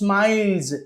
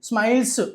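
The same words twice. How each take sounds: First: The word ends with a buzzing z sound. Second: The word ends with a hissing s sound. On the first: The speaker calls it right. "దాన్ని జ లాగా చదవాలి" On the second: The speaker calls it wrong. "స్మైల్స్ కాదు"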